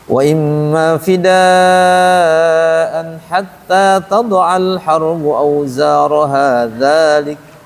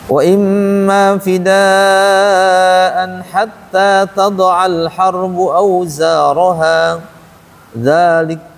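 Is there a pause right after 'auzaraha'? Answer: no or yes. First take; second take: no; yes. First: Auzaraha runs straight into dzalik without pausing. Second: There is a pause after auzaraha, before dzalik. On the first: The verse stops after dzalik instead. "Atau auzaraha dzalik berhenti di situ" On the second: The verse stops after auzaraha. "di sini malah auzaraha, waqafnya waqaf kafi, dzalika juga waqaf lagi"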